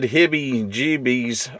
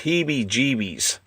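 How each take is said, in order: First: The first word is said like 'hibby'. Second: The first word is said like 'heebie'. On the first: The speaker calls it wrong. "I think I mispronounced this last time" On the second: The speaker calls it right. "I think it's"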